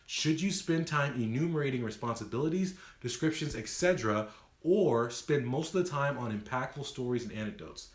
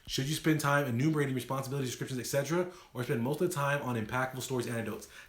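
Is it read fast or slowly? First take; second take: slowly; fast. First: It is read at a slower pace. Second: It is read at a faster pace.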